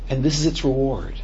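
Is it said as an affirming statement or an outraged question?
affirming statement. It is said as a warm, affirming statement.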